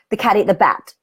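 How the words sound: The sentence stops abruptly, cut off.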